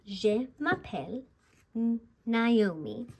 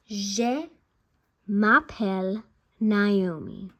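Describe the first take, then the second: First: Je m'appelle repeated in French for learners; French repetition. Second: M'appelle said slowly and louder, each French sound clear; careful French pronunciation. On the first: Teacher repeating the phrase so viewers follow along. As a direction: repeat Je m'appelle Naomi for them to copy. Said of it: "Let's repeat that". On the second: Teacher pronouncing her name phrase clearly for learners. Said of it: "now I'm gonna pronounce it". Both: Shown as a demonstration.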